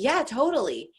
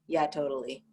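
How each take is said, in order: First: It sounds enthusiastic and excited. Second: It sounds flat and unenthusiastic.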